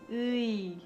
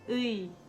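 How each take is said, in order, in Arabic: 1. يُمدّ الحرف الصوتي ببطء. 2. يُقال الحرف الصوتي بالسرعة العادية. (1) "Wenn man ganz langsam ausspricht" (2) "Wenn man normal spricht"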